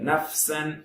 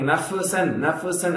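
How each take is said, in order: First: The f sound stops cleanly with no bounce. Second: The f sound ends with an echoing bounce. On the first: The speaker calls it right. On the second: The speaker calls it wrong.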